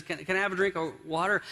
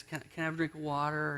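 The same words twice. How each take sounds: First: Quick, mildly exasperated request, acted out; mildly frustrated. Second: Softer, quick plea, acted out; mild begging. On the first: Husband asking his wife yet again, mildly frustrated. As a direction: ask with a touch of impatience, words tumbling a little. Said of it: "he's getting really frustrated now". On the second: Worn-down husband pleading with his wife, mildly begging. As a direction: plead meekly and quietly, tripping into the request. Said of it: "finally he's begging".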